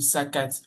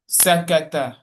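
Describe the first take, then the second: First: The word ends on a t sound. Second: The word ends on a vowel after t. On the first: The speech stops after this word. "When when I'm stopping at the end" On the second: The speech continues on to the next word. "But while continuing, I say"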